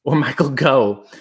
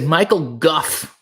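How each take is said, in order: First: Michael Gough, Gough said like "go", with no f at the end; correcting himself, Gough rhymed with "go". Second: Michael Gough, Gough rhymed with "rough", ending in an f sound; first reading Gough as "guff", drawn out. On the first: Correcting the name for chat, Gough said as "go". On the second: Reading a chat name to viewers, Gough said as "guff". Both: Shown as a demonstration. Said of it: "is the actor's name".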